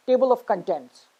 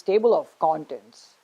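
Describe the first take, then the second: First: "contents" mis-stressed as conTENTS; wrong stress. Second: "contents" stressed as CONtents; correct stress. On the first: Retold or imitated. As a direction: imitate the mistake, stressing the second syllable of "contents". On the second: Shown as a demonstration. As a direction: say "contents" with the weight on the first syllable. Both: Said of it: "That's wrong".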